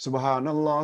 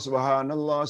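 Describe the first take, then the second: The two takes are said the same way.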